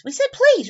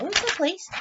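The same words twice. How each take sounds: First: High, loud "please"; emphatic answer. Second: Said in the usual way. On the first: Real, not acted. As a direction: answer triumphantly, pitched up high. Answering own question for the kids.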